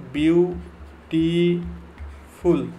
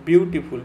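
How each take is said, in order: First: "বিউটিফুল" very slowly in three drawn-out syllables; teacher splitting "বিউটিফুল" syllable by syllable; broken into syllables. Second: Said in the usual way. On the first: Shown as a demonstration. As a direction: stretch "বিউটিফুল" as বিউ, টি, ফুল with gaps between. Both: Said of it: "আমি তিনটে syllabus এটাকে ভাঙলাম".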